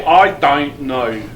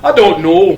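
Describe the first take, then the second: First: Slow, drawn-out Aussie or Kiwi I don't know; a playful, slow Australian-accent I don't know. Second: I don't know in a loud, high Scottish burr with rolled sounds; a quick, loud Scottish-accent demo. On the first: Retold or imitated. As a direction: imitate a New Zealander stretching out I don't know. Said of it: "the Aussies and the New Zealanders say". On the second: Shown as a demonstration. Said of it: "the best accent I do is Scottish".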